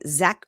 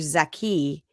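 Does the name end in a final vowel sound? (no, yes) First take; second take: no; yes. First: The name ends on a k sound. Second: The name ends with an added ee vowel. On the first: "pronounced like Zach, Z H A K" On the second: "or closer to Z H A K I"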